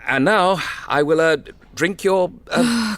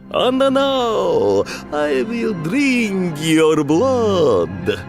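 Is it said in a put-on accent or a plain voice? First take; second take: plain voice; put-on accent. First: It is said in a plain, ordinary voice. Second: It is said in a put-on vampire accent.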